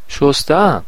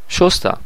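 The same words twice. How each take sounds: First: The stress is on the second syllable. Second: The stress is on the first syllable. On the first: It is the present perfect. "شما باید ماضی نقلی بگید" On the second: It is the simple past. "من مثلا گذشته رو میگم"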